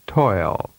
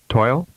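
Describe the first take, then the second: First: The vowel is prolonged. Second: The vowel is held briefly. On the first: "and then with a longer duration" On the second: "with a short vowel duration first"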